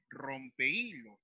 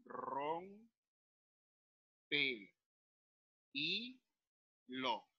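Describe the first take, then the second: First: Said in the usual way. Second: ROMPEHILO in four soft, stretched syllables: rom, pe, i, lo; quiet, slow syllable division of "rompe y lo". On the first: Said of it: "debo separarlo". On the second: Shown as a demonstration. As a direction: say "rompe y lo" with a long pause after each syllable. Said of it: "debo separarlo, digo".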